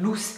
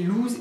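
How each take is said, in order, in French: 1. Il se termine par un son s sifflant, comme loose. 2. Il se termine par un son z vibrant, comme lose. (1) "on devrait dire" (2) "c'est une erreur"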